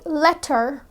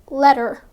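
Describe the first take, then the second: First: The middle consonant is a clear T. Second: The middle consonant sounds like a D. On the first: "Instead of saying letter" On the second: "they say letter"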